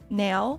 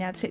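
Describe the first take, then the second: First: The vowel glides like an Australian or Kiwi accent. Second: The vowel sounds plain, without an Antipodean glide. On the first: "they go nail" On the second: "instead of saying now"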